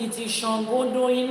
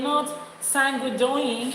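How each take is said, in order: First: "Shangodoyin" said with a clear "sh" at the start; correct pronunciation. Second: "Sangodoyin" said with a plain "s" at the start; wrong pronunciation. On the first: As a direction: say "Shangodoyin" as Shan-go-do-yin, with sh. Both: Shown as a demonstration. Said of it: "Learn to pronounce it".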